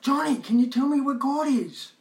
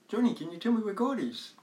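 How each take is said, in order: First: It is yelled loudly. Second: It is asked in a calm, normal voice.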